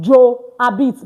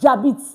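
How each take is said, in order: First: The vowel of je is sounded before habite. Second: The vowel of je is dropped and joined. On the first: The speaker calls it wrong. "not Joabit" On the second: The speaker calls it right. "but what? Jabit"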